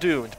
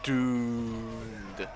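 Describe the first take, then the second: First: The vowel is short and plain. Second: The vowel is stretched out long. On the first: "Not doomed" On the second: "but doomed. The more O's makes it more serious"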